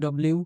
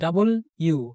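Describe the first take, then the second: First: The letter name is squeezed into two syllables. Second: The letter name is said in three full syllables. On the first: The speaker calls it wrong. "এটা আমরা অনেকেই বলি ডব্লিউ" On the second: The speaker calls it right. "এটা ডাবল ইউ"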